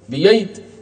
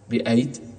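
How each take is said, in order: First: The middle sound is a y sound. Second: The middle sound is a glottal stop.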